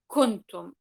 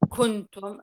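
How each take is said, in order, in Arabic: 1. النون مدغمة تماماً في الكاف. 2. النون مخفاة مع غنّة أنفية. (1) "أنا لو سأدغم النون عند الكاف مثلا حتكون إيه كنتم" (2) "النون لا تظهر، النون مخفاة، في نفس الوقت إنه النون ليست مدغمة"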